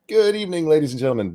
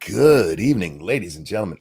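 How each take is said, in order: First: The greeting sounds normal. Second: The greeting sounds creepy.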